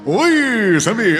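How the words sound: It is said in a radio-announcer voice.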